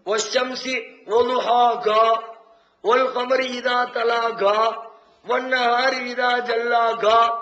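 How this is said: The word endings are said with a k sound.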